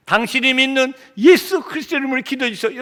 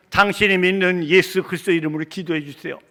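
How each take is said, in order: First: Higher, impassioned request for prayer; fervent plea. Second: Said in the usual way. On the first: Retold or imitated. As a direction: plead with rising preacher's fervor. Plea repeated with preaching fervor.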